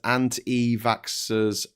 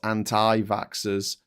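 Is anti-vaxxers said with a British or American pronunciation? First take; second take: British; American. First: It is said with a British pronunciation. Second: It is said with an American pronunciation. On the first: The speaker calls it right. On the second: The speaker calls it wrong.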